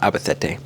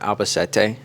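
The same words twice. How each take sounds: First: The middle consonant is a lisped th sound. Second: The middle consonant is a plain s sound.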